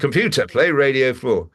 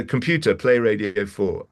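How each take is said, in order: First: Higher, mildly exasperated repeat; acted impatience at a voice assistant; insistent command. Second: Said in the usual way. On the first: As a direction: give the order again with more push. Repeats command after being corrected.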